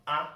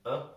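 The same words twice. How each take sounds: First: A said with a full, stressed vowel; full letter a. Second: A said as a short uh, the schwa; reduced a. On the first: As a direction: give a its strong, unreduced sound. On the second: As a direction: reduce a to a quick, relaxed uh. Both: Shown as a demonstration. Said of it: "which we pronounce as".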